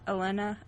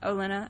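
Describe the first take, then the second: First: The name begins with an E sound. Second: The name begins with an O sound.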